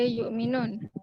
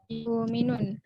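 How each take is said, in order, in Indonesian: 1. Saktah terdengar setelah yu. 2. Tidak ada saktah; vokal dipanjangkan sebagai gantinya.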